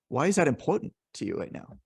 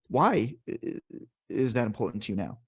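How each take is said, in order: First: The stress falls on the word important. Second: The stress falls on the word why. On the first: The question invites talk about how much it matters. "then they're going to talk about the importance" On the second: The question invites talk about the reasons. "then you're emphasizing the why"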